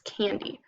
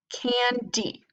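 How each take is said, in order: First: Said in the usual way. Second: "candy" as two separate beats, can, dee; split into syllables. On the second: Shown as a demonstration. Teacher showing children how to blend, "candy" split in two. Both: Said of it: "put those syllables together".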